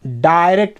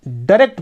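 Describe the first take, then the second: First: British accent, डायरेक्ट said as "dai-rekt" with the "ai" sound. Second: American accent, डायरेक्ट said as "də-rekt" with a short first vowel. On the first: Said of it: "British accent में". (British accent में डायरेक्ट, "आय" ध्वनि के साथ) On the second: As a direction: give डायरेक्ट the American "də" at the start. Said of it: "American accent में". (American accent में डायरेक्ट, "अ" ध्वनि के साथ) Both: Shown as a demonstration.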